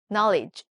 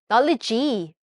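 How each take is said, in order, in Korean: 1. 이 단어는 영어 소리로 발음해요. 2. 이 단어는 한국어 소리로 발음해요. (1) "G입니다" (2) "knowledge 아니고"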